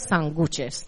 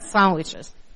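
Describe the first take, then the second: First: The stress is on the second syllable. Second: The stress is on the first syllable. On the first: It is read as written without the accent mark. "para uno que no sea de aquí, esta palabra es sándwiches" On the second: It is said the way locals say it. "No es sándwiches"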